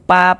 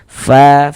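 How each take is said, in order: First: It begins with a stopped p sound. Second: It begins with a breathy flowing f sound. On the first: The speaker calls it wrong. "Jadi jangan dibaca pa, pi, pu" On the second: The speaker calls it right. "tapi harus ada nafas yang mengalir. Fa, fi, fu, seperti itu"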